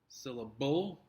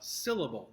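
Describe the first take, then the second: First: The stress is not on the first syllable. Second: The stress is on the first syllable. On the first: The speaker calls it wrong. "That sounds silly" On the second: The speaker calls it right. "The first syllable, again, is stressed in this"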